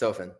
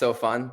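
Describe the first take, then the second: First: The second syllable sounds like 'fin'. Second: The second syllable sounds like 'fun'. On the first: The speaker calls it right. "but yes" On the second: The speaker calls it wrong. "Sometimes mispronounced"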